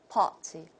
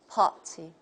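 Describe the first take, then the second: The two takes are said the same way.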